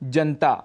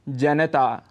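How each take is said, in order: First: The vowel after the n is dropped. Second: The vowel after the n is fully pronounced. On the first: The speaker calls it wrong. "यहाँ पर न में जो अ स्वर है उसको हम छोड़ देते हैं" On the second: The speaker calls it right. "इसका शुद्ध उच्चारण है जनता"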